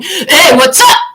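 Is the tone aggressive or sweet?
aggressive. It is said in an aggressive, hostile tone.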